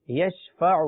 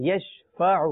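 The two takes are said the same way.

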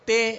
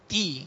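First: The vowel is a mid 'ay' sound. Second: The vowel is a high 'ee' sound. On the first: The speaker calls it wrong. "تے مجہول ہے" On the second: The speaker calls it right. "تی یہ معروف ہے"

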